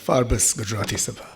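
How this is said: Forbes is said with a Gujarati pronunciation.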